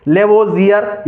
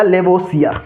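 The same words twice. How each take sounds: First: लेवोजियर with a voiced z, le-vo-zi-yar; लेवोजियर, buzzing z in the middle; variant with z. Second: लेवोसियर with an unvoiced s, le-vo-si-yar; लेवोसियर, plain s in the middle; variant with s. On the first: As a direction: say लेवोजियर with z in place of s. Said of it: "कई लोग इसे लेवोजियर भी पढ़ेंगे". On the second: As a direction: say लेवोसियर with s in place of z. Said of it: "आपको याद रखना है लेवोसियर". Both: Shown as a demonstration.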